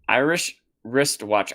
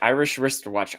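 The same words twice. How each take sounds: First: It is said slowly and carefully. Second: It is said quickly.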